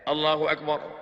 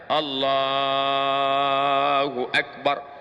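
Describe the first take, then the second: First: The phrase is said short and quick. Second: The phrase is drawn out long and slow.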